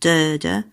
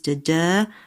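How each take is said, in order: First: The stress is on the first syllable. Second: The stress is on the second syllable. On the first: This pattern follows the regular rhythm. "and not de-de" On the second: This pattern breaks the regular rhythm. "Macbeth is de-de"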